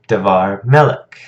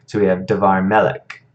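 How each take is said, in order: First: "Davar" rushed, stress moved onto "melech"; "Davar melech" said fast, weight on "melech"; quicker davar. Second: "davar" quick and light, stress landing on "melech"; "davar melech" run together, weight on "melech"; stress on second word. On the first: Teacher shows the weight sliding onto "melech". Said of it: "pronounced a little more quickly". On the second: Teacher shows stress sliding onto "melech". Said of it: "the emphasis is shifting to the second word". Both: Shown as a demonstration.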